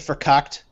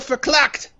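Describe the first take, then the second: First: The word has no L sound in it. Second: The word contains an extra L sound. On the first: The speaker calls it right. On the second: The speaker calls it wrong.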